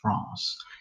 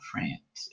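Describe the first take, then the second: First: It is said with a French pronunciation. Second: It is said with an American English pronunciation. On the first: The speaker calls it right. "In France, they say France" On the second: The speaker calls it wrong. "it's not France"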